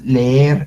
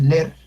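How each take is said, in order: First: The 'e' is drawn out long. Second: The 'e' is short, said only once. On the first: The speaker calls it right. "Nosotros decimos leer" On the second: The speaker calls it wrong. "Nosotros no decimos leer"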